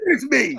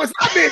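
First: Resigned admission. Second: High, protesting denial; indignant denial. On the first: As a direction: give in and admit it. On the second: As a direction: insist it is not your fault, pitched up. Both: Retold or imitated. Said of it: "I go".

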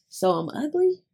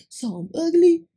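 First: Higher-pitched mock incredulous question. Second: Hammed-up, high and loud mock disbelief; louder incredulous question. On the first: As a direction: imitate him asking, pitched up. Retells his hurt reply, first take. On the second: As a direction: imitate him, pushing it high and loud. Repeats his reply, more exaggerated.

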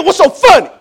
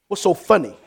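First: High, loud, demanding dad; stern parental yell; getting serious. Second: Said in the usual way. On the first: Acted. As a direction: demand an answer from giggling kids. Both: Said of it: "You get serious".

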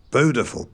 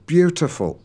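First: "Beautiful" as "boo-tiful", no y sound; yod-dropped pronunciation. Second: "beautiful" with the y, "byoo-tiful", higher; standard pronunciation. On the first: Retold or imitated. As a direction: say "Beautiful" with a plain oo. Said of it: "every time he said". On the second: Shown as a demonstration. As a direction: correct him with a clear "byoo" in "beautiful".

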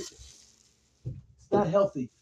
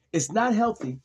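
First: Mock tearful. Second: Said in the usual way. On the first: Tearful repeated lament.

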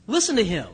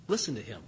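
First: "Listen to him" said firm and louder, LISTEN punched; an order that must be obeyed; firm command. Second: Quiet command. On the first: Shown as a demonstration. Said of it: "It's a command". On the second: Retold or imitated. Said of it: "what does the voice say".

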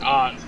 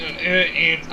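First: "Aunt" with a broad ah vowel; open-ah "Aunt", rhyming with British "aren't"; other pronunciation. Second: "Aunt" with the short a of "ant"; flat-a "Aunt", rhyming with "pant"; Midwest pronunciation. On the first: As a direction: say "Aunt" as "ahnt". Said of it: "it could be aunt or aunt". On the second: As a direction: say "Aunt" just like the insect, ant. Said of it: "over in the Midwest, we say aunt". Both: Shown as a demonstration.

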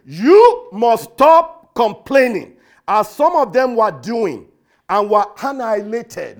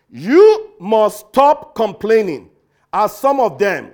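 First: Slow and loud, every word a command; stern authoritative voice. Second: Slow, loud, stern command; authoritative command. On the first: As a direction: thunder it out as Paul's stern warning. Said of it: "in the most stern voice, authoritative tone". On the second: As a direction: lay down the law like an apostle. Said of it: "in the most authoritative tone". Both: Retold or imitated.

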